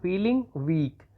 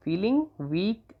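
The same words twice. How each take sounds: First: "feeling weak" drawn out very slowly; very slow dictation of "feeling weak". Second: "feeling weak" drawn out very slowly, ending on a rise; very slow repeated dictation of "feeling weak". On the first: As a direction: stretch "feeling weak" so students can write it. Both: Shown as a demonstration. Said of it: "तो आप लिख देंगे feeling".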